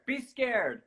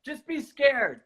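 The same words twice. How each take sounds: First: Scared, softer. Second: Scared. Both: Shown as a demonstration.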